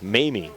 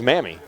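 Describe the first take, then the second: First: The first syllable sounds like 'may'. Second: The first syllable sounds like 'mam'. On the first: The speaker calls it right. "pronounced Mamie" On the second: The speaker calls it wrong. "you might think it's Mammy"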